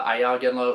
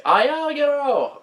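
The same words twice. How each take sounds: First: Said in the usual way. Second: Villager's yell. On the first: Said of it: "I said that wrong". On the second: Retold or imitated. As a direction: yell it out like an alarmed call. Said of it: "the villagers might yell".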